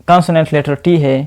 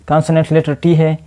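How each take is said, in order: The two takes are said the same way.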